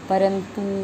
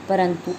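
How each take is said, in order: First: The final vowel is a long oo. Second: The final vowel is a short u. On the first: The speaker calls it wrong. "अशुद्ध उच्चारण जो करते हैं वो कर देते हैं" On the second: The speaker calls it right. "छोटे ओ की मात्रा लगी हुई है"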